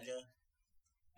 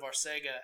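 First: The s-sound is said with a lisp. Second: The s-sound is said plainly, without a lisp. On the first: "with this weird little lisp over the" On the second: "Instead of Arcega"

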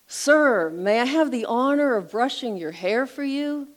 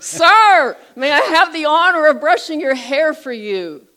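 First: It is said somewhat louder than normal. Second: It is said very loudly, almost yelling.

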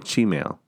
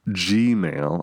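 First: It begins with a sound like 'ch'. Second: It begins with a plain 'gee' sound. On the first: This is the speaker's own habit. "So you say ch. Yeah, kind of" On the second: This is the usual way others say it. "I don't say Gmail"

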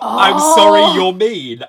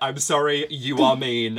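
First: 'You are' is contracted to 'you're'. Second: 'You are' is said as two full words. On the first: The remark would sting less. "Not, I'm sorry you're mean" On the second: The remark has a sharper sting. "that has a sting to it that... That elision just wouldn't have had"

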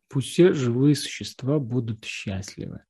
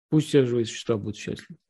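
First: It is spoken slowly, savoring each word. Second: It is mumbled flatly and quickly. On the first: The words are felt and taken in. The speaker calls it right. "можно как-то их разжевать в себе" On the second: The words are recited mechanically without feeling. The speaker calls it wrong. "можно пробубнить действительно"

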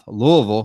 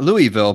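First: The word is mumbled and slurred together. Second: The word is said clearly and fully. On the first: The speaker calls it right. "You have to say with a mumble, ... like you have marbles in your mouth" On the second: The speaker calls it wrong. "not Louisville"

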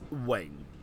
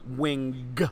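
First: The final g sound is soft. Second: The final g sound is sharp. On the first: The speaker calls it right. "The G is very soft" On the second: The speaker calls it wrong. "the G at the end of wing is not very sharp. It's not Wing"

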